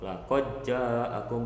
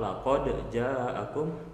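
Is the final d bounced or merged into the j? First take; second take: merged; bounced. First: The d is merged into the following j. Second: The d is released with a bounce before j. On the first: "boleh dibaca idgham" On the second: "boleh dibaca qalqalah"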